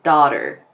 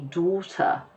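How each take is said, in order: First: It is said in an American accent. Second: It is said in a British accent. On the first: "If a person from the United States pronounces the word daughter, they will probably sound more like the way that I'm saying it" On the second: "if you ask somebody British to say the word daughter, ... They might say daughter"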